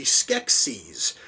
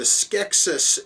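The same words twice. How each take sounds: First: Skeksis with a long EE ending, SKEK-seez; pronounced SKEK-seez. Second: Skeksis with a short, unstressed ending, SKEK-sis; pronounced SKEK-sis. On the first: Reviewer quoting the name at film's start, Skeksis as SKEK-seez. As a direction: end Skeksis on a buzzed "-eez". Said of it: "it once more is being pronounced". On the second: Reviewer showing how the name randomly changes, Skeksis as SKEK-sis. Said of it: "it randomly turns into". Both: Shown as a demonstration.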